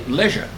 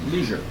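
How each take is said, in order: First: It is said in the speaker's home pronunciation. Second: It is said in the American pronunciation. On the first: "I heard it pronounced our way the other day" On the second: "I thought it was only pronounced one way in the United States"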